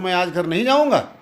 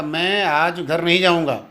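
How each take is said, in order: First: Weight on नहीं and जाऊँगा, a mild challenging lilt; emphatic questioning tone. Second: Said in the usual way. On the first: Shown as a demonstration. Teacher shows the same sentence with kaku emphasis. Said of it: "इसी को दूसरे प्रकार से बोलता हूँ". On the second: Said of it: "सामान्य वाक्य है".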